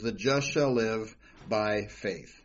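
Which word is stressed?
faith. The stress is on "faith".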